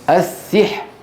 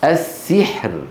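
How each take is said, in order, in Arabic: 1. الكلمة تنتهي بدون أي صوت راء. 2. الكلمة تنتهي بصوت راء واضح.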